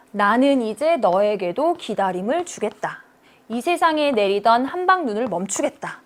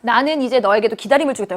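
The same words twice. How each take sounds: First: Measured metrical reading; read in four beats. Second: Said in the usual way. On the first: Shown as a demonstration. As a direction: pause between each 음보 to show the rhythm. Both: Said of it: "몇 음보로 읽힙니까?".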